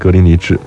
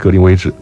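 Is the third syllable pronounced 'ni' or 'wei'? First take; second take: ni; wei. First: The third syllable is pronounced 'ni'. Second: The third syllable is pronounced 'wei'. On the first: This is how local British people say it. "一个是英国本地人念格林尼治" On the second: This is the form used for time reckoning. "一个是用在时间上面的计算念成格林威治"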